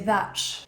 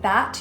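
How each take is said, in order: First: The final T ends with a ch sound. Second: The final T is released plainly. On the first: "You put a little ch on the end of your T" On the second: "instead of saying that"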